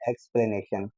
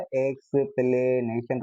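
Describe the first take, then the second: First: Said in the usual way. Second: एक्सप्लेनेशन drawn out slowly, syllable by syllable, rising at the end; syllable demo. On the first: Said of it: "मैंने word बोल रहा हूँ एक्सप्लेनेशन". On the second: Shown as a demonstration. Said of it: "एक्सप्लेनेशन के अंदर क्या है". (एक्सप्लेनेशन को धीरे-धीरे सिलेबल में तोड़कर)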